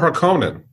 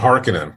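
First: The name is said in a non-traditional way. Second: The name is said in the traditional way.

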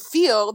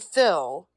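First: The vowel is a long 'ee' sound. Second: The vowel is a short 'ih' sound. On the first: "Instead of saying feel" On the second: "they say fill"

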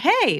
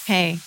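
First: It is said excitedly, like an exclamation. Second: It is said flatly, without excitement.

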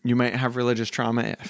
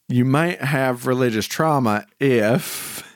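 First: It is said in her normal voice. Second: It is said in a put-on accent.

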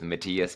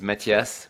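First: The name is said with an American pronunciation. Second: The name is said with a French pronunciation. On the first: "I Americanized it a little bit with Matthias" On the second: "the French way is Matthias"

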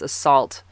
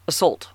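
First: The second syllable sounds like 'salt'. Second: The second syllable sounds like 'sulk'. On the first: The speaker calls it right. "I pronounce this assault" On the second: The speaker calls it wrong. "Like she's saying sulking"

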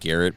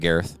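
First: The name ends with a plain t sound. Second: The name ends with a lisped th sound. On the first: The speaker calls it right. "It's like supposed to be like Garrett" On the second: The speaker calls it wrong. "It sounds like he has a lisp"

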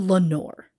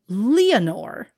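First: The name is said with two syllables. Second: The name is said with three syllables. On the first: "some simply call her Lenore" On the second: "I'm going to pronounce it Leonore"

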